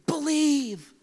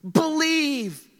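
First: Whispered Believe, breathy and unvoiced; hushed Believe. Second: Said in the usual way. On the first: Shown as a demonstration. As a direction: whisper Believe to your neighbor. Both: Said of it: "Tell him".

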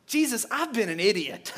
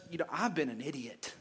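First: Said in the usual way. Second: Softer, lower, sheepish admission; humbled confession. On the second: Retold or imitated. Peter, imagined, admits his folly to Jesus, quiet and sheepish. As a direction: mutter it ashamed.

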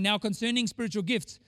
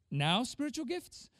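First: Said in the usual way. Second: "Now spiritual gifts?" with "spiritual" dragged out slow and rising; slow, questioning "Now spiritual gifts?" with the stress on the wrong word. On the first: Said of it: "instead of saying". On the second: Shown as a demonstration. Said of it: "put the emphasis in the wrong place".

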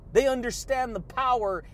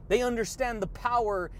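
Both takes have the same delivery.

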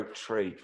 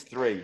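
First: Quiet "Tree" with T replacing the TH; Irish "tree" for three. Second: "three" starting on TH rather than T; corrected TH. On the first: Retold or imitated. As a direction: imitate Kieran's "Tree", hard T, softly. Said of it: "say tree over and over". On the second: Shown as a demonstration. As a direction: say "three" with a proper soft TH. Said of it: "He means three".

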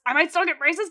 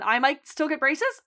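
First: Louder, higher and more eager; the hope bursts out; eager question. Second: Hopeful rising question. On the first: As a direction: Debbie thrilled about the braces. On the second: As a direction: ask it with a little hope. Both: Retold or imitated.

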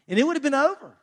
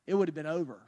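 First: "it would have been over" pushed up high with "would" hit hard; emphatic high. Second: "it would have been over" dropped low and soft, "would" only lightly stressed; quiet low echo. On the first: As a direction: punch "would", voice well up. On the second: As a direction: let it sink, low and soft. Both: Real, not acted. Emphatic first take, quiet repeat.

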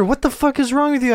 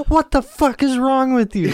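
First: Shouted from another room, higher. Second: From another room. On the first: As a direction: yell it from the next room. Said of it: "No, I hear". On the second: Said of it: "she just yells". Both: Retold or imitated.

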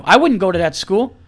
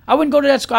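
First: Said in the usual way. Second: "go" pushed higher, an insistent repeat of "I wouldn't go to that school"; emphatic repeat. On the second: Real, not acted. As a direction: hammer the point home with "go". Repeats it with more force.

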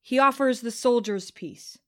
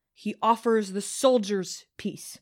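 First: Said in the usual way. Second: Slow, pointed weight on "soldiers"; stress on soldiers. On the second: A narrator's reading. Narrator contrasts soldiers with the wronged, "soldiers" slow and stressed. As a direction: set "soldiers" apart with slow, deliberate emphasis. Repeat after naming those denied peace.

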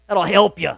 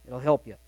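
First: Said in the usual way. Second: Soft echo. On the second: Shown as a demonstration. Pastor repeats the reassurance to the congregation, softly. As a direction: lower and softer echo of the line.

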